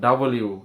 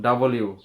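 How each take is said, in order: First: The first vowel is an open a sound. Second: The first vowel is an open a sound.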